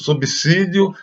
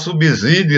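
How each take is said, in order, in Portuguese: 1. O S depois do B é surdo, como S. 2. O S depois do B é sonoro, como Z. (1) "falar o correto, subsídio" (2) "vamos deixar de falar subsídio"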